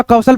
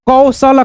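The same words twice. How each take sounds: First: Said in the usual way. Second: कौशल read in parts, trailing vowel on ल; कौशल as कौ-स-ल, final vowel voiced; sounded out by parts. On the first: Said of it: "कौशल पढ़ेंगे". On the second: Shown as a demonstration. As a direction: sound out कौशल slowly for learners. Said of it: "जोड़ करके पढ़ लेना है".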